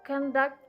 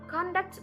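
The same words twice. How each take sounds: First: The stress is on the second syllable. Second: The stress is on the first syllable. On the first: It is a verb meaning to run something. "The second syllable is stressed" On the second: It is a noun meaning behavior. "the word is stressed on the first syllable"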